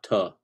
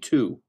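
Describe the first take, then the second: First: The word is reduced with a weak vowel. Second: The word is said fully with a clear vowel. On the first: The speaker calls it wrong. "not ta" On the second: The speaker calls it right. "If we enunciate ta, it would be to"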